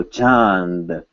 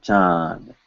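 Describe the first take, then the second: First: "chand" with nasal vowel plus short n; short N sound. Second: "chand" with only a nasal vowel, no n before d; N left out. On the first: Teacher showing the correct way to say it, short N sound. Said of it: "you will hear a short N sound". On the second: Teacher showing what not to say, N left out. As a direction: drop the n from "chand", vowel straight into d. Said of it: "not chand". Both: Shown as a demonstration.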